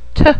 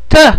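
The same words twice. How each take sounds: First: The t sound is soft and light. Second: The t sound is hard and firm. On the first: "T in English is a little bit softer" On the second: "Make it harder"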